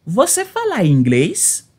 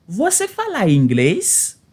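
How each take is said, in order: Both takes have the same delivery.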